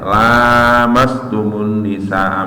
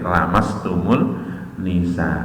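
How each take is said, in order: First: The first vowel is drawn out long. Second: The first vowel is kept short. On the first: "Itu dikon maca dawa" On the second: "boleh dibaca pendek"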